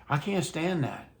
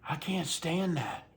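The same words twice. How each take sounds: Both takes have the same delivery.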